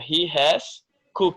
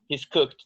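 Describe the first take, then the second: First: The word has is said in full. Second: The word has is contracted onto he.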